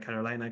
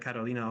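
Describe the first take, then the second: First: The name is pronounced the English way. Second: The name is pronounced the Polish way. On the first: The speaker calls it wrong. "the English pronunciation" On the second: The speaker calls it right. "I do prefer Carolina over Carolina because that part is set in Poland"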